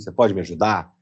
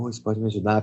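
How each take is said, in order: First: It is said in a firm, confident voice. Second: It is said in a meek, timid voice. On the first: The person asserts themselves. The speaker calls it right. "de se impor pela voz" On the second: The person shrinks back and hides. The speaker calls it wrong. "pelos cantos"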